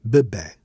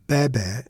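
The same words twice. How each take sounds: First: "bebé" as buh-BEH, first vowel closed; weak first syllable in "bebé", open final eh; reduced first syllable. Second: "bebé" as BEH-BEH, both vowels open; accent on both syllables of "bebé"; open first syllable. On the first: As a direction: swallow the first e of "bebé", stress the last. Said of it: "otherwise would be". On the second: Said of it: "on the first syllable to ensure that it sounds like". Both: Shown as a demonstration.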